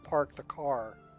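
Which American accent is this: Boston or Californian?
Californian. It is spoken in a Californian accent. "over in California"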